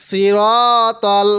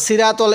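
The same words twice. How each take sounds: First: "সিরাতল" slowly with long rounded ro; correct heavy raa. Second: "সিরাতল" quickly with a thin flat raa; mistaken light raa. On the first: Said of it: "কখনো সিরাতল এরকম করে পড়বেন না". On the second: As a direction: toss off "সিরাতল" with unrounded vowels, as an error. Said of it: "এরকম করে পড়বেন না". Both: Shown as a demonstration.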